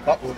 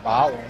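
First: The O vowel is said very quickly. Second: The O vowel is drawn out long. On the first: It means buried underground. "you do the O really quickly" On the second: It means packed lunch. "you draw out the O, meaning button and it's lunch"

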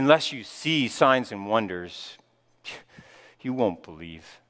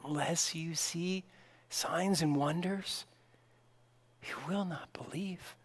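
First: It sounds sighing and sorrowful, like a lament. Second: It sounds gentle and compassionate.

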